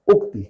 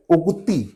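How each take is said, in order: First: उक्ति short, with brief final इ; correct short vowel. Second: उक्ति with a long final ई; common mispronunciation. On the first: Teacher answering with the right word, pronunciation demo. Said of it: "क्या सही शब्द होता है?". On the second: Teacher showing what people say, mispronunciation demo. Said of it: "जैसे लोग कहते हैं". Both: Shown as a demonstration.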